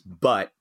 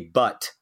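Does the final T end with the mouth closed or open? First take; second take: closed; open. First: The final T is a glottal stop, lips closed. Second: The final T ends with the mouth left open. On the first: "I said but by closing my mouth" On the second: "I didn't say but"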